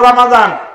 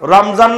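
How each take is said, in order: First: The middle consonant is a d sound. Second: The middle consonant is a z sound. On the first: The speaker calls it right. "রমজান না রমাদান?" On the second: The speaker calls it wrong. "রমজান না রমাদান?"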